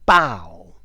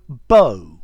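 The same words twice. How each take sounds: First: The vowel differs from the one in no. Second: The vowel sounds like the one in no. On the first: It means a tree branch. "you could also spell this B O U G H" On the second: It means a boyfriend. "as in no"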